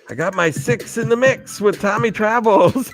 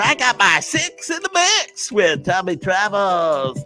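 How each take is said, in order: First: It is said in his normal speaking voice. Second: It is said in a put-on radio DJ voice.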